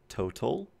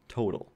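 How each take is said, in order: First: The middle consonant is a clear t. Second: The middle consonant is a quick flap. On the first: "If you're a British English speaker, you would say total" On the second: "in my dialect of English, that is a flap"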